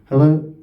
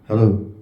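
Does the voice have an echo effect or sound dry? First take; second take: dry; echo. First: The voice is dry with no added effect. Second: The voice has a strong echo on it. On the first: The speaker calls it right. "I'm talking with a normal voice, so there's no effect on it" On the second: The speaker calls it wrong. "Echo sounds like this"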